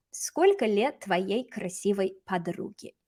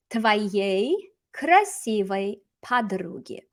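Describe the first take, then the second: First: Said in the usual way. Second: Very slow, one word at a time; slow model reading. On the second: Shown as a demonstration. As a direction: spell out the phrase word by word. Teacher models phrase slowly, then repeats.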